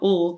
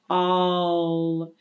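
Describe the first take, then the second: First: A short weak vowel followed by L. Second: A full vowel gliding into an L. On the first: The speaker calls it wrong. "or ul" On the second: The speaker calls it right. "has some L coloration in it"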